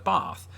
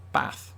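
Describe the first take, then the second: First: BATH with a long AH; long-A southern BATH; southern English bath. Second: BATH with a short A, as in cat; short northern A in BATH. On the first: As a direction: stretch the A in BATH to "bahth". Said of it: "what Southerners in England do". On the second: Contrast with long-A bath. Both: Shown as a demonstration.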